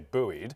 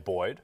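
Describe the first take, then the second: First: The word is said the American way. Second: The word is said the British way. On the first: "In America, apparently, you guys say buoyed" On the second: "in British English, you say Boyd"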